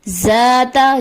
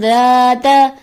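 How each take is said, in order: First: The first consonant sounds like a j. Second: The first consonant is a clear d. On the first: The speaker calls it wrong. "दाल की जगह जा की आवाज आ जाती है" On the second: The speaker calls it right. "दुरुस्त अदायगी है"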